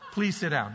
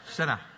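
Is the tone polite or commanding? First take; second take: polite; commanding. First: It is said in a polite, gentle tone. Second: It is said in a harsh, commanding tone.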